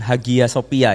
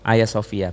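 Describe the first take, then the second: First: The g in the middle is pronounced. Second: The g in the middle is silent. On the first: The speaker calls it wrong. "Bacanya jangan Hagia Sophia ya, jangan ya" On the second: The speaker calls it right. "Karena G di tengah itu nggak dibaca"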